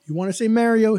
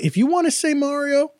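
First: Mario with "mare", MARE-io; flat-vowel Mario. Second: Mario with "ah", MAH-rio; open-vowel Mario. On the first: Host summing up the debate, Mario as MARE-io. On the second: Host summing up the debate, open-vowel Mario. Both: Shown as a demonstration. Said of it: "you do you".

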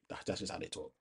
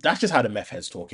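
First: Whispered under the breath; sheepish whisper. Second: Said in the usual way. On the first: Real, not acted. Whispering it again after apologising to listeners. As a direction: drop to a guilty whisper. Repeats it after saying sorry.

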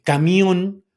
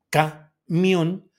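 First: Said in the usual way. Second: "camión" broken as ca... MIÓN; higher voice, pause after "ca", then stressed "mión" in "camión"; split, stress on MIÓN. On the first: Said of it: "por ejemplo". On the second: Shown as a demonstration. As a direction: spell out the syllables of "camión", landing on the O. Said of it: "se pone tilde en la O".

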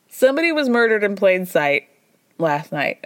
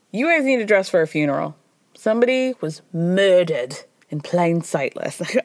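First: Said in the usual way. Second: Put-on a clumsy Scottish accent doing Alan Cumming; bad Scottish accent. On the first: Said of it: "That was bad". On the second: Recapping The Traitors, doing the host in a weak Scottish accent. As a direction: attempt a Scottish accent and fall short. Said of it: "I can't do a Scottish accent".

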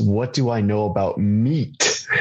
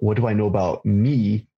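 First: Slow line landing hard on "meat"; drawn-out realization, "meat" punched at the end; stress on "meat". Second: The misheard word "me", stretched and ending without a consonant; stress on "me". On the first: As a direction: reveal "meat" with a clear final t. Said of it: "He asked". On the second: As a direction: lean on a long, open "me". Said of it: "he didn't ask me". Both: Retold or imitated.

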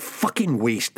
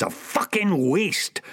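First: Said in the usual way. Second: "fucking" पर ज़ोर, धीमा और उठता सुर; "a fucking waste" धीरे, ऊँचे उठते सुर में; stress on fucking. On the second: Acted.

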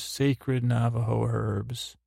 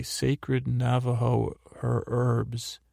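First: "herbs" said with a sounded h; careful pronunciation. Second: "herbs" restarted, second try without the h; stumbling pronunciation. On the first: Recapper quoting the herbs excuse, careful pronunciation. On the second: Recapper retrying a tricky phrase, stumbling pronunciation. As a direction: trip on "her-", then say "herbs" as "erbs". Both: Real, not acted. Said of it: "That's hard to say".

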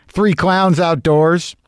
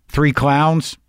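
First: Slow, amused, laughing repeat. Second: Said in the usual way. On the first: Real, not acted. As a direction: laugh through it, drawn out slowly. Repeats line laughing, slowed.

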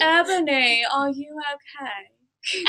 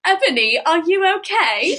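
First: Slow, softening mock-gothic question; half-hearted goth impression, trailing into laughter. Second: Put-on higher British-accented question, rising at the end; lilting attempt at a British accent; Hermione. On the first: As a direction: drag it out like a dramatic goth. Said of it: "It has to sound gothic". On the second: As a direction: do a mock British schoolgirl accent. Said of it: "Do the Hermione voice".

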